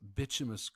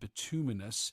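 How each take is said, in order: First: It uses the pronunciation taught in England. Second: It uses the standard pronunciation. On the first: The speaker calls it wrong. "I've always called it bituminous coal and subbituminous based on how I was taught in England" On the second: The speaker calls it right. "I know that it is pronounced bituminous"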